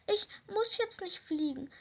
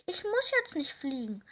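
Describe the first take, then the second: First: High, near-tearful "muss" squeak; squeaky. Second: "muss" stressed, falling at end. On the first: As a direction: peep "ich muss jetzt nicht fliegen" high and whiny. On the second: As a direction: lean on "muss", settle down at "fliegen". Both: Acted. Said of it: "piepste die kleine Raupe".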